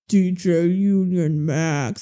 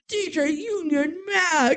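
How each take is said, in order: First: It is said in a very deep voice. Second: It is said in a hyped radio-announcer voice.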